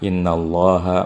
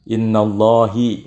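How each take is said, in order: First: The word ends with an a vowel. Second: The word ends with an i vowel. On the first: The speaker calls it right. "Ada yang fathah innallaha" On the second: The speaker calls it wrong. "Tidak bisa kita baca ... innallahi"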